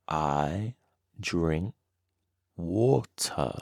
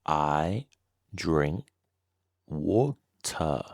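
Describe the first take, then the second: No difference in how they are said.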